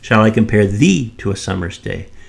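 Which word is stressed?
thee. The stress falls on the word thee. This person, not someone else, is compared. "shall I compare you to the summer's day or someone else"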